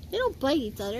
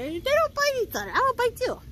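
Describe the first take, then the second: First: Said in the usual way. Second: Very high pet-talk scolding; playful scolding. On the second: Real, not acted. Playful scolding of pet, repeated higher.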